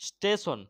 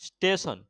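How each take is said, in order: Both takes have the same delivery.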